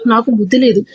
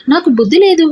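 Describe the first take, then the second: First: Said in the usual way. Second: Exasperated. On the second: A narrator's reading. Frustrated outburst. Repeats phrase, second louder.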